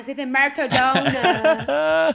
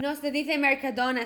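First: "Mercadona" loud and stretched in mock English; exaggerated English accent. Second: Said in the usual way. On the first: Shown as a demonstration. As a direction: belt "Mercadona" slowly with English r's and vowels.

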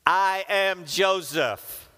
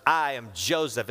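First: Slow, loud and high, each word landing; dramatic reveal. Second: Said in the usual way. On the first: Acted. Joseph revealing himself to his brothers, slow dramatic proclamation. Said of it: "he said to them those words". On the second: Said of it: "repeated verse read plainly".

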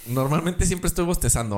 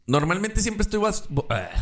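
First: Said in the usual way. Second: Words stretched by a yawn. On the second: Real, not acted.

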